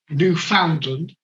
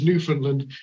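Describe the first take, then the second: First: Every part is pronounced as it is spelled. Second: It is not pronounced as it is spelled. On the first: The speaker calls it wrong. "pronounces Newfoundland the way it is spelled" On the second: The speaker calls it right. "The correct pronunciation is Newfoundland"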